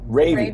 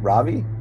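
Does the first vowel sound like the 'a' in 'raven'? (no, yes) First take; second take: yes; no. First: The first vowel is like the 'a' in raven. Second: The first vowel is not like the 'a' in raven. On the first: The speaker calls it right. "like Raven" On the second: The speaker calls it wrong. "I'm gonna say it wrong again"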